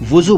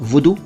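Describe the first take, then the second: First: The middle consonant is a 'z' sound. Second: The middle consonant is a 'd' sound. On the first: "वुजू बोल रहे हैं" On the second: "इसको वुदू बोलिए"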